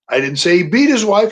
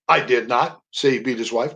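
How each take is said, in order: First: The stress falls on the word beat. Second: The stress falls on the word not. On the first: He did something milder than beating her. "He was knocking around a little bit" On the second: The speaker denies having said it. "That's a statement of denial"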